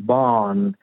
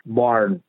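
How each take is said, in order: First: بارن as "baan", drawn-out A and no R; non-rhotic barn with a long A; British-Australian pronunciation. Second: بارن with the R clearly sounded; American pronunciation. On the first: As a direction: say بارن the Australian way, stretching the vowel. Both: Shown as a demonstration.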